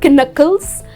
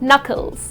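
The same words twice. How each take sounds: First: The word begins with a sounded K. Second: The word begins with a silent K. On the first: The speaker calls it wrong. "it's not knuckles" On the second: The speaker calls it right. "it's just knuckles, okay? The letter K is silent"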